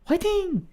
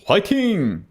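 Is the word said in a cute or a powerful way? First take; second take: cute; powerful. First: It is said in a cute, playful way. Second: It is said in a strong, powerful way. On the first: "You can say like in a cute way" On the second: "You can say in a very powerful way"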